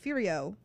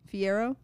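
First: The name sounds like 'Furio'. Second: The name sounds like 'Fiero'. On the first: The speaker calls it wrong. "but in my head, I'm always like" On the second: The speaker calls it right. "Well, I said it just then"

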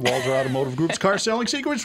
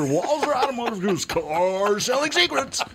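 First: It is said in an ordinary speaking voice. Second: It is said in a put-on announcer voice. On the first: The speaker calls it wrong. "Why didn't you do it in the radio voice?" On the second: The speaker calls it right. "Let's do another take"

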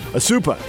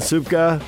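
First: No k sound is pronounced in the name. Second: A k sound is pronounced in the name. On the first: The speaker calls it right. "K is silent" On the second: The speaker calls it wrong. "That pronounce that right?"

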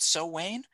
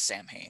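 First: It sounds like 'sow-wain'. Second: It sounds like 'sam-hain', as spelled. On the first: The speaker calls it right. "I think it's called So Wayne" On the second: The speaker calls it wrong. "they pronounce it as Samhain. It's not pronounced that way"

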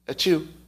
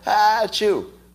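First: The sneeze is small and quiet. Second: The sneeze is bigger and louder.

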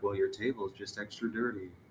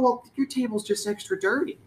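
First: The line is said in a sultry, suggestive voice. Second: The line is said in a plain, ordinary voice.

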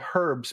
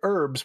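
First: The word starts with an H sound. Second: The word starts without an H sound. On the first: This is how the English say it. The speaker calls it right. "we say herbs because there's a fucking H in it" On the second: This is how Americans say it. The speaker calls it wrong. "Americans say herbs"

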